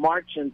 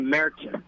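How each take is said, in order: First: The first vowel is an open 'ah' sound. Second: The first vowel sounds like English long 'ay'. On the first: "that changes it from Marzen" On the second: "It's like an English long A"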